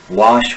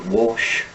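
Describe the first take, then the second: First: The vowel is an open unrounded 'ah'. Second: The vowel is a rounded 'o' sound.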